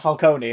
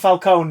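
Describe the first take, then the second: First: The name is said in an Italian style. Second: The name is said close to 'falcon'. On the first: This is the usual pronunciation elsewhere. "not Falcone in this one" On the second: This is the pronunciation used in the film. "they go for Falcone"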